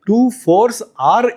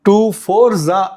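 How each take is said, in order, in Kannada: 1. 'Fours' ಮತ್ತು 'are' ಪ್ರತ್ಯೇಕ ಪದಗಳಾಗಿ ಹೇಳಲಾಗುತ್ತದೆ. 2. 'Fours are' ಅನ್ನು 'za' ಎಂದು ಒಟ್ಟಿಗೆ ಸೇರಿಸಿ ಹೇಳಲಾಗುತ್ತದೆ.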